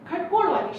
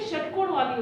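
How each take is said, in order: First: The first word begins with a 'kh' sound. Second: The first word begins with a 'sh' sound. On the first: The speaker calls it wrong. "हम उसे गलत पढ़ते हैं" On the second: The speaker calls it right. "षटकोण वाली होती"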